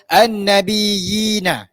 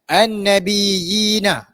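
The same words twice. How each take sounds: Both takes have the same delivery.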